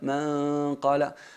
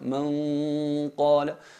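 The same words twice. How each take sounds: First: The nasal sound is cut short before the q. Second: The nasal sound is held fully before the q. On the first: The speaker calls it wrong. "Pretenden llegar a, a la letra antes de, eh, digamos, eh, mm, especificar o perfeccionar el sonido de la gunna, y eso sería incorrecto" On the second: The speaker calls it right. "utilicemos únicamente la, la, cavidad nasal a la hora de sacar el sonido de la gunna"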